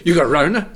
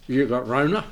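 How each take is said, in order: First: Put-on higher, louder child voice through a laugh; imitating little Billy. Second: "Rona" said for corona, plain at first; quoting the boy's "Rona" mildly; child's mispronunciation. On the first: Grandfather imitating Billy hearing a cough, laughing and high. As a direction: play the startled little boy asking "You got Rona?", laughing. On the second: Retold or imitated. Retelling the grandson's words, "Rona" said lightly. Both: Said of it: "he couldn't say corona right".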